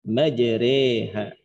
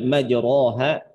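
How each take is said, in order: First: The vowel after r is tilted toward e. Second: The vowel after r is a plain open a. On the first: The speaker calls it right. "tapi bacanya majreha" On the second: The speaker calls it wrong. "Jadi bacanya bukan lagi dibaca dengan majroha"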